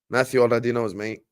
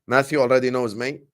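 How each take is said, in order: Both takes have the same delivery.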